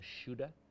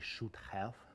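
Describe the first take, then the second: First: The two words merge into one reduced word. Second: Both words are pronounced fully and separately. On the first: "or even shoulda" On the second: "Americans don't say should have"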